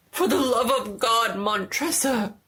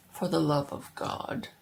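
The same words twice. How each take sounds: First: Higher, louder crying plea; desperate plea. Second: Cold mocking echo. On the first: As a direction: beg for your life. Trapped man begs. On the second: Montresor coldly echoes. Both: A narrator's reading.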